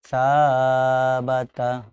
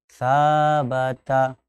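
First: The first vowel is stretched for four beats. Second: The first vowel is held for two beats. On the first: The speaker calls it wrong. "tidak sampai empat. Sabata. Nah, tidak" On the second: The speaker calls it right. "kita contohkan sabata"

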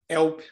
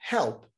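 First: The initial h sound is silent. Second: The initial h sound is breathy and audible. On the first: The speaker calls it wrong. "não é help" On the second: The speaker calls it right. "é help... tem um som que lembra o nosso R"

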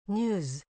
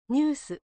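First: The word ends with a z sound. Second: The word ends with an s sound. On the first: The speaker calls it right. "ニューズです" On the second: The speaker calls it wrong. "ニュースではなく"

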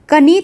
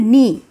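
First: A k sound is pronounced before the n. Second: The word starts directly with the n sound. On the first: The speaker calls it wrong. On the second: The speaker calls it right.

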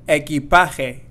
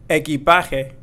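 No difference in how they are said.

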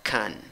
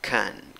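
First: It is unstressed with a reduced schwa vowel. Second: It is unstressed with a reduced schwa vowel.

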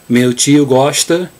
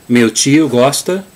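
The two takes are said the same way.

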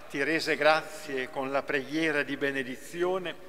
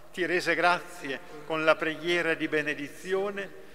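The two takes are said the same way.

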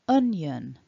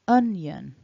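First: The word is pronounced as two syllables, un-yun. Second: The same.

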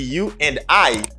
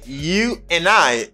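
First: The word 'and' is fully pronounced. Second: The word 'and' is reduced and linked. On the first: "au lieu de you and I" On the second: "C'est you and I"

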